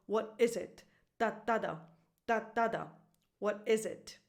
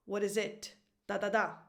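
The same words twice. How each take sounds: First: "What is it" with IS stressed, "it" falling away; da-DA-da rhythm, middle beat stressed. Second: "What is it" with weight on the final "it"; da-da-DA rhythm, last beat stressed. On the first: Teacher shows the correct music, stress on IS. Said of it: "The correct music is". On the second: Teacher shows the wrong music, stress on IT. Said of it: "So the music is not". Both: Shown as a demonstration.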